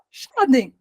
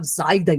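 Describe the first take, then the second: First: The name begins with an 'sh' sound. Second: The name begins with a 'z' sound. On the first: The speaker calls it wrong. "eu não sabia o nome do Shaden. Eu falava Shaden" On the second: The speaker calls it right. "Eu tinha um som de Z"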